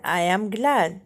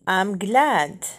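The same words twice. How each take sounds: First: Slow "I am", two separate words; uncontracted "I am" before "glad"; full form. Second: "I'm" as one syllable before "glad"; short "I'm", clear "glad"; contracted form. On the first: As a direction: say "I am glad" word by word. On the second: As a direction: run I and am together into "I'm". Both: Shown as a demonstration. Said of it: "بالصيغة المختصرة".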